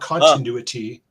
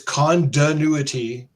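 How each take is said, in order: First: The T sounds in the word are pronounced. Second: The T sounds in the word are dropped. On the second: "He can't say T. ... It's continuity"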